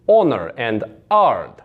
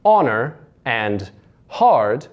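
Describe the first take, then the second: First: Honor and ard with no H; dropped H. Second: Said in the usual way. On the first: Shown as a demonstration. Coach shows Russian accent, H dropped in ard. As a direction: drop the H so hard becomes "ard". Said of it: "You just get rid of that H sound". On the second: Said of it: "which is for words like".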